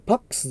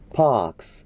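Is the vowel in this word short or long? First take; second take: short; long. First: The vowel is short, with a clipped stop. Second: The vowel is long and drawn out. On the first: The speaker calls it wrong. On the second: The speaker calls it right.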